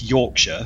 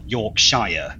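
First: The ending is a short, reduced 'sher' sound. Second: The ending is a full 'shire' sound. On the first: The speaker calls it right. "it's Yorkshire" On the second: The speaker calls it wrong. "not Yorkshire. We're not hobbits"

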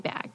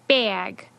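First: The vowel is a single low vowel. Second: The vowel is a raised two-part diphthong. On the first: This is the older pronunciation. "Before the shift, it was pronounced with the tongue fairly low in the mouth" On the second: This is the newer pronunciation. "now it turned into a diphthong"

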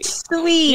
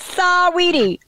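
First: The name is said with two syllables. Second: The name has an extra vowel, three syllables. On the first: "You just have to say it like Sweetie" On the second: "I'm always like Saweetie"

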